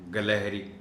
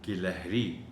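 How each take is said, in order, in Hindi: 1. पहले अक्षर में 'a' स्वर है। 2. पहले अक्षर में 'i' स्वर है। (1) "बहुत से लोग गाफ को ज़बर के साथ पढ़ जाते हैं" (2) "सही तलफ़्फ़ुज़ है कि गाफ के नीचे ज़ेर है"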